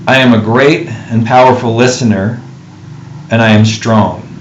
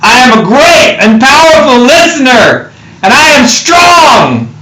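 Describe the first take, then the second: First: It is said in a normal voice. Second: It is said in an epic voice.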